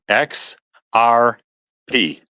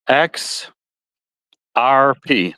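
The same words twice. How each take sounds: First: Said in the usual way. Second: X R P said with a Midwestern twang, letters drawn out; slight Midwestern twang on the letters. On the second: Real, not acted. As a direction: let the Midwestern twang color "X R P". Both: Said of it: "That's my Midwestern twang".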